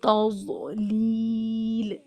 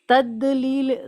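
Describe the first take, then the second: First: The middle consonant is heavy and emphatic. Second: The middle consonant is a d sound. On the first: The speaker calls it right. "तौज़लील इस तरह पढ़ना है" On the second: The speaker calls it wrong. "तदलील दाल साउंड के साथ नहीं पढ़ना है"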